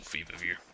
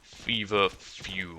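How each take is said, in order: First: The last part sounds like 'view'. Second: The last part sounds like 'few'. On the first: The speaker calls it wrong. "I'm just gonna keep mispronouncing it" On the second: The speaker calls it right. "I'm gonna try to make sure I'm pronouncing it correctly"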